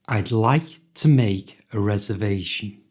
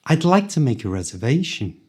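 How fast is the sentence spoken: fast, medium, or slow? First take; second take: medium; fast. First: It is spoken at a moderate speed. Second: It is spoken quickly, at full speed. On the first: "this time a little faster" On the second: "at the speed native people speak"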